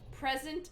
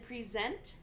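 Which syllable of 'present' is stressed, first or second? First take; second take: first; second. First: The stress is on the first syllable. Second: The stress is on the second syllable. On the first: It names a thing. "the noun, you know, has the emphasis on the first syllable" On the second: It names an action. "the verb has it on the second syllable"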